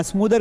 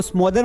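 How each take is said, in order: First: स्मूदर with a long 'oo' in the first syllable; correct pronunciation taught. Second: स्मोदर with a long 'o' in the first syllable; wrong pronunciation. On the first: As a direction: say स्मूदर, vowel as in 'smooth'. (स्मूदर, लंबे 'ऊ' की मात्रा के साथ) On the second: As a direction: say स्मोदर, vowel as in 'go'. (स्मोदर, 'ओ' की मात्रा के साथ गलत उच्चारण) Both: Shown as a demonstration. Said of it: "इसको स्मोदर मत पढ़ना".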